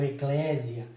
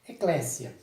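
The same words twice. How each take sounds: First: The middle consonant is a buzzing z sound. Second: The middle consonant is a hissing s sound. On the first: The speaker calls it wrong. "com Z. Então essa sonoridade com Z está errada" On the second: The speaker calls it right. "com o som de S"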